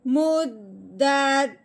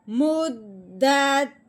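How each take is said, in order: First: The voice drops low at the end. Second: The same.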